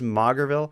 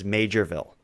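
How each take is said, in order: First: The first part sounds like 'mauger'. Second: The first part sounds like 'major'. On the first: The speaker calls it wrong. "assumed it was Maugerville" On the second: The speaker calls it right. "The actual place name is Majorville"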